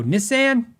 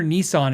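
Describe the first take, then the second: First: "Nissan" said NISS-an, pitched higher; "Nissan" with short i and a as in can; Canadian-style pronunciation. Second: Said in the usual way. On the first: Retold or imitated. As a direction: echo "Nissan" as NISS-an, mimicking a friend. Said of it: "and not go". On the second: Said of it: "we can't hear Nissan and not go".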